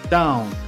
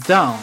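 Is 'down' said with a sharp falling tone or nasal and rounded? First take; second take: nasal; falling. First: It is said nasally with rounded lips. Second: It is said with a sharp falling tone. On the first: The speaker calls it right. "它有一定的鼻音， 然后口腔更圆一点" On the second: The speaker calls it wrong. "它不是down 不是当当当发四声哈"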